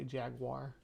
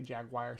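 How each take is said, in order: First: It is said in a fuller, unclipped form. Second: It is clipped to sound like jag-wire. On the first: This is the speaker's usual way. "usually I say jaguar" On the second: The speaker is talking fast. "when I'm talking real fast, like J A G W I R E"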